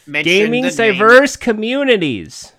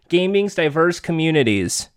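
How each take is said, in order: First: It is said with more emotion and feeling. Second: It is read out in a flat, plain way.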